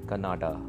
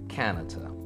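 First: The word begins with a g sound. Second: The word begins with a k sound. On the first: The speaker calls it wrong. "Don't say Canada" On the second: The speaker calls it right. "It's Canada. And the sound is ka, not ga"

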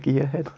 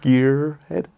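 First: It is said in a British accent. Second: It is said in an American accent.

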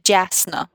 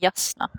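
First: The J sounds like the 'j' in 'jam'. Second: The J sounds like the 'y' in 'yes'. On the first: The speaker calls it wrong. "Det er ikke Jasna" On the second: The speaker calls it right. "det er Jasna. ... med norsk J"

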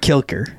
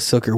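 First: The name begins with a K sound. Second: The name begins with an S sound. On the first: The speaker calls it wrong. "And it's not Kilker" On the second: The speaker calls it right. "It's Margot Silker"

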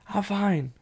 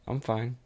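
First: It is shouted loudly in an angry tone. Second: It is said flatly and mildly, giving in. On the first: The speaker attacks the other person. "Aggressive, ... A real shout" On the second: The speaker avoids sharing real feelings. "passive statement"

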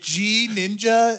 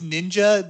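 First: The initial G sound is pronounced. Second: The initial G sound is left silent. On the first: The speaker calls it wrong. "is it G-Ninja?" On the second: The speaker calls it right. "The G is silent"

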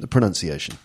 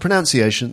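First: The second syllable sounds like 'nun'. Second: The second syllable sounds like 'noun'. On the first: The speaker calls it right. "so you get the pronunciation right" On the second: The speaker calls it wrong. "Not the pronunciation"

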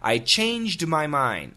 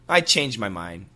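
First: The D at the end of changed is heard. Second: The D at the end of changed is dropped. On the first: "I'll say it quickly with perfect pronunciation" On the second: "most Americans, most of the time, this is what we say... You do not hear the D"

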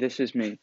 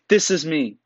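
First: It sounds pitiful and unsure. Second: It sounds assured and confident. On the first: The speaker is asking for sympathy. The speaker calls it wrong. "And not being" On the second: The speaker is confident in who they are. The speaker calls it right. "With tone in your voice. Assurance"

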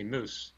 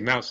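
First: It is said with a Canadian vowel. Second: It is said with an American vowel. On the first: "they say moose" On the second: "They don't say mouse"

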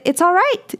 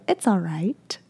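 First: The voice goes up at the end. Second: The voice goes down at the end.

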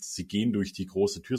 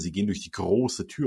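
First: It is read flatly, without vocal emphasis. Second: It is read expressively, with vocal emphasis.

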